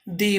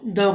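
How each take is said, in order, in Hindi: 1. इस शब्द का अंत लंबी 'ee' ध्वनि से होता है। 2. इस शब्द का अंत छोटी 'uh' ध्वनि से होता है। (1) "नाउन का प्रोनाउंसिएशन अगर वॉवेल से हो रहा है तो ... दी बोलते हैं" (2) "अगर वो कॉन्सोनेंट्स है तो द बोलते हैं"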